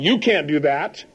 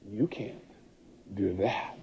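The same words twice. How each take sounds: First: It is said in a plain, discouraging tone. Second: It is said in a seductive, sexual tone. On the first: The inner voice holds one back. "So instead of it saying" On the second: The inner voice tempts one to do it. "change the tonality so that it has a sexual tone to it"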